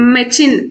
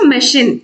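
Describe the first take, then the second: First: The middle consonant is a ch sound. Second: The middle consonant is an sh sound. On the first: The speaker calls it wrong. "మెచిన్ అనలేము కదా" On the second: The speaker calls it right. "షిన్ అనాలి"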